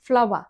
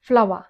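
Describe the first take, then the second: First: It sounds like 'flower'. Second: The same.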